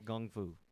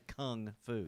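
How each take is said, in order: First: The first word starts with a G sound. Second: The first word starts with a K sound. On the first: This is how it is said in China. "with a G, like K G" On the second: This is how Americans say it. "in America, we say kung fu"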